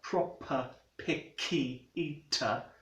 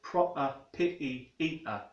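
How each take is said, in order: First: The k is released with a puff of air. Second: The k is held without releasing any air. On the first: "releasing the air after the consonant in the second syllable" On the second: "a Cockney speaker might say something like"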